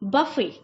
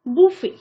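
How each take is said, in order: First: The first vowel sounds like in 'buff'. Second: The first vowel sounds like in 'book'. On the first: The speaker calls it wrong. "जो कि एक सही तरीका नहीं है" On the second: The speaker calls it right. "इसको हम सही प्रोनाउंस कैसे करेंगे"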